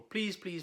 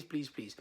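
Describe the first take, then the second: First: Earnest pleading please, please; begging. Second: The pleading please, please fading off softer; softer begging. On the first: Vet begging a dog owner to treat the allergy, pleading. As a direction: beg the owner to try it. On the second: Vet begging a dog owner, plea fading softer. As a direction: let the plea sink to a soft near-whisper. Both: Retold or imitated. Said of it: "I will get on my knees and just beg people".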